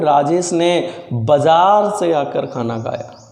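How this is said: The stress falls on the word बाजार. He came from the market and then ate. "तो जोर बाजार पे दे रहा हूं"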